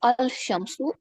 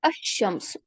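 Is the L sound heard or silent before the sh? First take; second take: heard; silent. First: The L sound is clearly heard before sh. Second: The L is silent and the sh is doubled. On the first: The speaker calls it wrong. "मैं ये नहीं पढ़ती हूँ" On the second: The speaker calls it right. "मैं पढ़ती हूँ अशम्सु"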